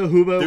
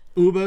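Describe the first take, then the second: First: The word starts with an audible H sound. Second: The word starts with a vowel, no H sound. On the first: The speaker calls it right. "There's an H" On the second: The speaker calls it wrong. "You're pronouncing it Uba"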